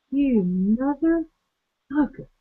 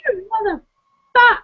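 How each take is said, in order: First: Hushed disbelief. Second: High mock outrage. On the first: Retold or imitated. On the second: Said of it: "and I'm just like".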